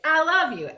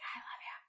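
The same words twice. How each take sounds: First: It is said aloud with lively fun. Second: It is said in a whisper.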